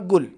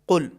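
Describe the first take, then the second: First: It starts with a g sound. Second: It starts with a heavy, deep q sound. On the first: The speaker calls it wrong. "ये दोनों तलफ़ुज़ सही नहीं है" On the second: The speaker calls it right. "हर्फ क़ाफ़ में आवाज़ भारी होगी"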